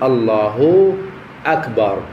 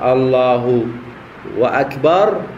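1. لا يوجد صوت 'w' بين الكلمتين. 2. يربط صوت 'w' بين الكلمتين. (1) "فلا بد وأن يقول الله أكبر" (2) "يكون تلفظا خاطئا"

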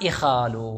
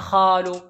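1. الحركة الأولى صوت 'i'. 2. الحركة الأولى صوت 'a' مفتوح. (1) "نقول أنا إخال" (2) "لا نقول أنا أخال"

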